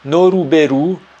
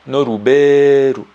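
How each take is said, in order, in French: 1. Le e est court et le u final est clair. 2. Le e est allongé et le u final est faible.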